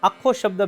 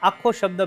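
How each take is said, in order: The two takes are said the same way.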